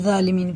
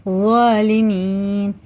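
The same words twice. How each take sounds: First: जालिमीन with a plain light j, said quickly; light j wrong take; wrong pronunciation. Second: ज़ालिमीन slowly with a full heavy emphatic z; heavy emphatic z correct take; correct pronunciation. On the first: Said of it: "इसे जालिमीन नहीं पढ़ेंगे ना". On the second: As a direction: stretch ज़ालिमीन and press the heavy z sound. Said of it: "पढ़ेंगे". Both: Shown as a demonstration.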